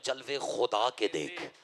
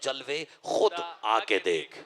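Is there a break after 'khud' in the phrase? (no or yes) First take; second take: no; yes. First: The syllables run together as khuda ke. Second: A break falls after khud, before aake. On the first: Look at the manifestations of God. "मैंने कहा" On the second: Come yourself and look at the manifestations. "लो लहजा बदल के देख रहा हो"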